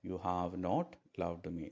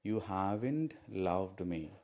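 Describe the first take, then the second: First: "Have" and "not" are said as separate words. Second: "Have not" is shortened to one syllable. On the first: "ഹാവ് നോട്ടിന് പകരം" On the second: "നോട്ട് നമ്മൾ ചുരുക്കി എഴുതി ഹാവിൻ്റെ നായി"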